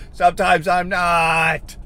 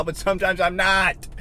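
First: Loud, very slow frustrated yell; drawn-out scream. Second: Slow, higher-pitched frustrated admission; drawn-out frustration. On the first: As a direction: yell it, dragging out every word. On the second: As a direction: stretch out NOT in frustration. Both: Real, not acted. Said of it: "you gotta listen to me scream".

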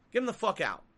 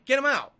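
First: Said in the usual way. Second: Shouted demand; loud. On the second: Real, not acted. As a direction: yell it out angrily. Angry demand to oust CEO.

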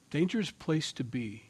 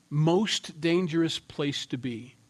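First: Said in the usual way. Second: Most dangerous said slowly with Most leaned on; preacher repeating the phrase, slower and pressing on Most; stress on Most, slowed. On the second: Shown as a demonstration. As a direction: draw out Most dangerous place to be, weighting Most.

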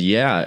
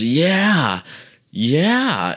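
First: Said in the usual way. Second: High, put-on wasted voice; high mocking echo of a wasted guy; imitated messed-up guy. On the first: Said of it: "I said". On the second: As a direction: mimic his dopey, high-pitched agreement. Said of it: "And he goes".

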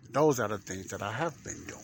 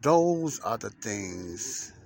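First: Said in the usual way. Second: Drawn out slowly, every word held; slow, deliberate podcast teaser read; slow dramatic opener. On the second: Acted. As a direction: let each word hang, like a teaser. Dramatic opening line, then repeated.

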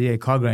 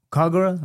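First: Said in the usual way. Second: Puzzled echo. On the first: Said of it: "I said". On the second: Retold or imitated. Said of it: "I train at, um, Kogra".

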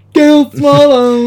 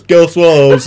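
First: Slow, drawn-out, higher and louder; mock announcer voice. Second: Higher, louder name call; mock announcer voice. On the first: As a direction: announce the name slowly into a mic. Acted quote of character at mic. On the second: Repeated quote at the mic.

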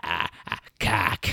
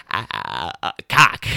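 First: Lighter mock stammer. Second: Stuttering ahs, then a loud burst on cock; mock stammer. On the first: Retelling the classmate's blurted word, lightly mocking. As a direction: toss off the stammer again, lighter. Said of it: "You're just like". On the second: Mocking a classmate fumbling a made-up word, loud blurt. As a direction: imitate a flustered kid blurting a word. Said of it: "you're like".

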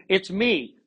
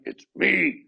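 First: Excited text. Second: Higher, sulky it's me; a touch of sulk in a short reply; moody text. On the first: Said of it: "exclamation point". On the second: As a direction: say it like a sulky message. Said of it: "That could be like". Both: Shown as a demonstration.

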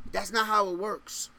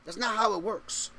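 No difference in how they are said.

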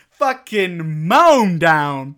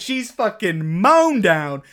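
First: Mown stretched very slow and louder; heavier stress on mown. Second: Mown drawn out, slow; stress on mown. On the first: Repeating Kaya's death, mown dragged out very slowly. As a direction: hammer down on mown, even slower. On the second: Telling of Kaya's death, stressing mown. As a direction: lean on mown. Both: Acted.

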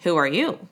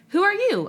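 First: Lower, mocking echo of "Who are you?"; the water's voice echoes Amos back, lower; low echo from the bubbles. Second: A startled high "Who are you?"; high, startled question. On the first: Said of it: "from the bubbles they heard". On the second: Acted. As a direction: Amos asks the face in the water, startled. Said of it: "asked Amos".

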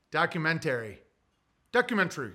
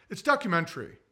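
First: Documentary stretched as dock-yoo-men-tair-ee; documentary with a full tair ending; his own odd pronunciation. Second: Documentary said with a short schwa ending; imitating others saying documentary as dock-yuh-men-ter-ee; mock correct pronunciation. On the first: Shown as a demonstration. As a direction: own way of saying documentary, long tair sound. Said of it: "I say also documentary". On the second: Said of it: "Everyone's like".

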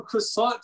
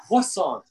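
First: Said in the usual way. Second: Second croissant said "kwah-sawn"; Q sound. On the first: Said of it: "You're going from". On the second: Retold or imitated. Pointing out a friend's change, croissant with a Q. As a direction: put a kw at the start of croissant, no r. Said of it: "which is a Q somewhere in there".

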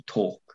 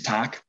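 First: Said in the usual way. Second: "tag" in a rough local North East English accent; local dialect pronunciation. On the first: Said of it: "how he used to tag". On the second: Shown as a demonstration. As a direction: say "tag" as dialect for talk, with a flat "a".

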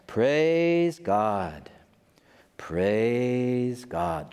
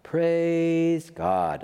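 First: A hint of a chanting believer; lightly mocking worshipper. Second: Chanted, higher mock praise from the crowd; imitated believer chant. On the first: Crowd around the preacher keeps praising God, lightly mocked chant. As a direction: murmur it like the crowd round the preacher. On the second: Chanted, the crowd repeats praise God again, a little higher, mocking. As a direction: chant it like a follower. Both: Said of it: "just like that".

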